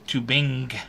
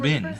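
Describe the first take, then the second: First: The final G sound is clearly pronounced. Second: The final G sound is dropped. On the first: "Emphasize the G" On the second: "I don't emphasize the G"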